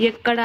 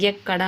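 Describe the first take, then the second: First: Said in the usual way. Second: ఎక్కడ begun as "yekkada"; added y glide. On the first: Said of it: "అనే చోట అచ్చు ఉంది". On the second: Shown as a demonstration. Teacher showing a common error, ఎక్కడ with a leading y. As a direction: put a y before ఎక్కడ. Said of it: "యా వాడుతున్నారు".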